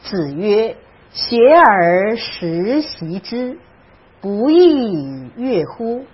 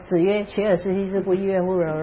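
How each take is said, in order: First: It is read slowly and clearly. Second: It is read quickly and carelessly.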